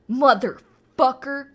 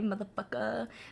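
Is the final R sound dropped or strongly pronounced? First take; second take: strong; dropped. First: The final R is pronounced hard and strong. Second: The final R is dropped, sounding smooth. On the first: It sounds harsh, like a slur. The speaker calls it wrong. "saying motherfucker with a hard R sounds like a slur" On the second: It sounds casual and natural. The speaker calls it right. "It's kind of smooth"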